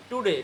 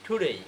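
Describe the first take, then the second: First: Said in the usual way. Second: টুডেই as "thu-dey", puff on T and gliding end; airy T, "ey" ending in টুডেই; aspirated pronunciation. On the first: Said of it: "এতদিন আমরা বলতাম টুডে". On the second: Shown as a demonstration. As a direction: breathe out on the T of টুডেই, glide to i. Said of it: "sound হবে হচ্ছে ঠ".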